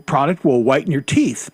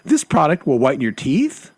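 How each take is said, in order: First: The voice falls at the end like a statement. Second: The voice rises at the end like a question. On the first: It is a plain statement. The speaker calls it right. "but she doesn't say it like that" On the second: It sounds like a question, as if unsure. The speaker calls it wrong. "she doesn't say it like that. She says"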